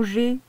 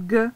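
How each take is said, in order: First: G said as the letter name /ʒe/; name the letter "G" like reciting the alphabet; "G" read as "jé". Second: "G" said as the hard sound /g/, as in gauche; "G" sounded as a hard g, not the letter name. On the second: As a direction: correct yourself and give "G" its hard g sound. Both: Shown as a demonstration. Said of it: "au G, pardon".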